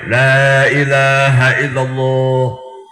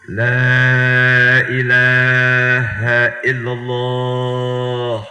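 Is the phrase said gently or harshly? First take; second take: harshly; gently. First: It is said loudly and harshly. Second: It is said slowly and gently. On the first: The speaker calls it wrong. "Jangan galak banget" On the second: The speaker calls it right. "talkinin pelan-pelan"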